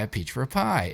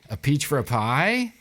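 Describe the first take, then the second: First: The voice falls at the end like a statement. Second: The voice rises at the end like a question.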